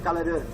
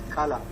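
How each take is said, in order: First: The final r sound is pronounced. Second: The final r sound is silent. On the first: The speaker calls it wrong. "You should not say color" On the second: The speaker calls it right. "It is color"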